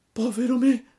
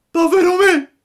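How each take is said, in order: First: High, loud lament; first cry of despair. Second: Much higher, much louder scream of despair; shrieking despair. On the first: Pinocchio learns he becomes a donkey, crying out. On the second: Pinocchio in full despair, screaming louder. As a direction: let the second cry burst out. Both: A narrator's reading. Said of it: "gridò Pinocchio".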